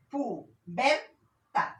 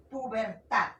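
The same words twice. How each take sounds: First: "Pubertad" very slowly in pieces, pu... ber... tad; syllable-by-syllable demonstration. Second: "pubertad" as one word, stress on the last syllable; stress demonstration. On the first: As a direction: split "Pubertad" into loud, separate syllables. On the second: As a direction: say "pubertad" whole, weight on "tad". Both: Shown as a demonstration. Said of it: "acá está llevando el acento".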